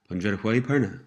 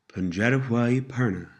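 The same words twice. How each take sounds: First: The phrase is spoken at a faster pace. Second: The phrase is spoken at a slower pace. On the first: "And a little faster" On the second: "Pronounced a little slower"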